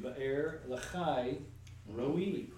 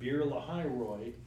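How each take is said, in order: First: The name is said in a Hebrew way. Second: The name is said in an anglicized way. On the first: The speaker calls it right. "is actually" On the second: The speaker calls it wrong. "as we've heard in church"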